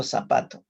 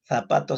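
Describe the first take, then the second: First: Zapato with an s sound, /sapato/; seseo zapato. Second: Zapato with a th sound, /θapato/; Castilian zapato. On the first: Teacher contrasting zapato with an s sound. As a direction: say zapato with a plain s. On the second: Teacher contrasting Zapato with a th sound. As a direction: say Zapato with the tongue between the teeth. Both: Shown as a demonstration.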